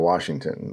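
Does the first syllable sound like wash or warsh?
wash. The first syllable has no r sound. This is the usual form. "instead of Washington"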